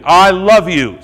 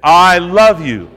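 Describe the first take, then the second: First: Loud, higher call-and-response line; call to repeat. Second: Louder and slow, each word drawn out; said again slowly. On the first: Preacher leading the congregation in a loud chorus, higher. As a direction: shout it out for the crowd to echo. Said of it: "Say it with me". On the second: Preacher leading the congregation a second time, slow and louder. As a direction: stretch it out as a model for them. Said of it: "Say that". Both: Shown as a demonstration.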